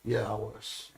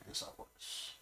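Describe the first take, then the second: First: Said in the usual way. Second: Whispered aside. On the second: Real, not acted. Repeats answer, dropping to whisper.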